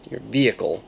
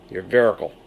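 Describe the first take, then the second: First: Said in the usual way. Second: "vericle" said with an R in place of the H; grandma's "vericle" with an R. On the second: Retold or imitated. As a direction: imitate grandma saying "vericle". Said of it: "as my grandmother used to say".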